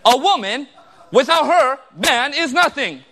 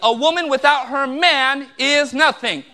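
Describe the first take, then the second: First: It is said with a comma pause inside. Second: It is said without a pause inside.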